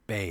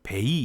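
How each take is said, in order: First: The vowel glides smoothly up into an ee. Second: It is said as two separate full syllables. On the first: The speaker calls it right. "이렇게 이가 따라간다" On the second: The speaker calls it wrong. "이러면 안 되겠죠. 그럼 두 개를 읽는 거죠"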